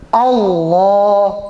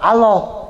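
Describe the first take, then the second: First: The L is pronounced heavy and full. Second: The L is pronounced light and thin. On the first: The speaker calls it right. "itu dibaca berat" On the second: The speaker calls it wrong.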